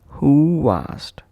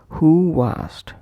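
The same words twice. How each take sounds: First: A soft w glide links the two words. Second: A soft w glide links the two words.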